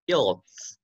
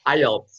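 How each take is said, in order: First: "ielts" read as one word, "yelts"; mispronounced IELTS. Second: "ielts" said "EYE-elts"; corrected IELTS pronunciation. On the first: Real, not acted. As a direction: say "ielts" without the opening "eye". ("ielts" dibaca "yelts") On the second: Shown as a demonstration. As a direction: open "ielts" with a clear "eye" sound. ("ielts" dibaca "ai-elts") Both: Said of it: "ya bacanya ya".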